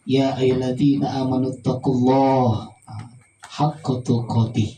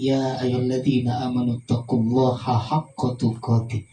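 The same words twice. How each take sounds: First: It has a pause, a stop within it. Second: It runs straight through without pausing.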